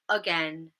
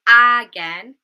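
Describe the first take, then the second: First: The first syllable has a reduced schwa vowel. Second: The first syllable has a full, unreduced vowel. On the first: The speaker calls it right. "we say again" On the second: The speaker calls it wrong. "we don't say again"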